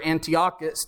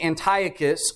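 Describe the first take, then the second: First: Antiochus said an-tee-OCK-us; alternative pronunciation. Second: Antiochus said an-TIE-uh-kus; first pronunciation variant. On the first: Preacher offering the other way to say the king's name, Antiochus as an-tee-OCK-us. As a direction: say Antiochus with stress on the OCK syllable. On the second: Preacher offering one way to say the king's name, Antiochus as an-TIE-uh-kus. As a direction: say Antiochus with stress on a long-i second syllable. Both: Shown as a demonstration. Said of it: "depending on how you say it".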